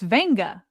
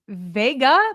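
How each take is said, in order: First: The name has an n sound before g. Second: The name has no n sound before g. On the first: The speaker calls it right. "but it's Venga" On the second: The speaker calls it wrong. "we've been saying Vega"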